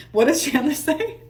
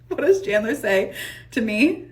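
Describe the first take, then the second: First: Laughing. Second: Said in the usual way. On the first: Real, not acted.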